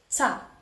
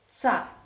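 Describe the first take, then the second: The two takes are said the same way.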